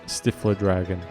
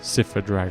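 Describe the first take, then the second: First: The name begins with a 'stiff' sound. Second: The name begins with a 'siff' sound. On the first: It is said as a joke. The speaker calls it wrong. "I just say Stifler Dragon as a joke" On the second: It is said the proper way. The speaker calls it right. "I know how to pronounce it"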